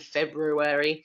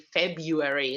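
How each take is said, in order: First: An R sound is heard after the B. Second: No R sound is heard after the B. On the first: "instead of" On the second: "many native speakers of English don't say the R sound"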